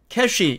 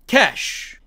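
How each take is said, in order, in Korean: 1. 한국식 외래어 발음으로 말합니다. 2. 영어 발음으로 말합니다. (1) "우리는 이것을 cash, cash 이렇게 발음하죠" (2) "영어의 원래 발음입니다"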